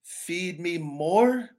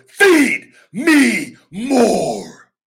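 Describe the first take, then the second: First: Slow, drawn-out half-hearted delivery; weak catchphrase. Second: Loud, high, drawn-out roar of feed; full-conviction catchphrase. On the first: Wrestler showing a limp catchphrase, drawn out. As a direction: say it like you don't believe it. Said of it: "Do you think if I'm going". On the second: Wrestler showing the catchphrase with total belief, roared. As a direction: belt it from the gut. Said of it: "What do you believe?". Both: Shown as a demonstration.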